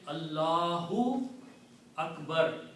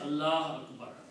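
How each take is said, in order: First: The first word ends with an 'u' vowel. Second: The first word ends without any final vowel. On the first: The speaker calls it right. "So you have to say Allahu Akbar" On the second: The speaker calls it wrong. "You cannot say Allah Akbar"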